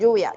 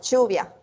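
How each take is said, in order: First: The LL sounds relaxed, like a Y. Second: The LL sounds strong and marked. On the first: This is how it is said in Latin America. "Nosotros la hacemos más como una Y" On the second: This is how it is said in Spain. "ellos lluvia, con doble L"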